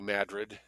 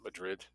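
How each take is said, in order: First: It is said the local Missouri way. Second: It is said the European way. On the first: It names the town in Missouri. "New Madrid" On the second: It names the original European city. "not Madrid"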